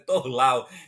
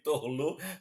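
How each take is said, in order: First: The name is read with a Portuguese-style ending. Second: The name is read with a French-style ending. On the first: This is how the name's owner says it. The speaker calls it right. "mas é Torlau" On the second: The speaker assumed the name was French. The speaker calls it wrong. "eu penso que é, é- é francês, aí eu leio Torlu"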